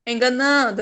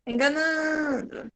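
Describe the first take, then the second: First: Said in the usual way. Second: Enganando slowed, the nan syllable drawn out; teacher showing the strong syllable slowly; stretched stress on nan. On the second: Shown as a demonstration. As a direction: lean on and lengthen nan in Enganando. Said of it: "é o não".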